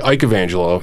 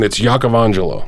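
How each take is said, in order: First: The name starts with an anglicized "Ike" sound. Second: The name has its Italian pronunciation. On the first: "a lot of people say" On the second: "technically, in Italian"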